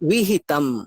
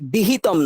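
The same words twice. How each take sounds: First: The lips stay apart on the first consonant. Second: The lips close together on the first consonant. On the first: The speaker calls it right. "দুটো ঠোঁটকে আমি ঠেকাবো না" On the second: The speaker calls it wrong. "বিহিতম নয়"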